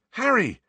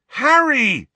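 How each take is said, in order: First: A high, urgent first call of his name; first of two calls. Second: Higher, louder second shout of his name; the call rising to a shout. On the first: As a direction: call him awake, worried. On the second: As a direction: shout him awake, now alarmed. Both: Acted. Ron wakes Harry in fright.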